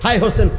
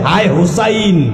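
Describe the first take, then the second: First: The name is said as Ho-sen, with an o. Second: The name is said as Hu-sain, with a u. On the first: The speaker calls it wrong. "হাই হোসেন হোসেন বলে না" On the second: The speaker calls it right. "হাই হুসাইন বলতে হবে"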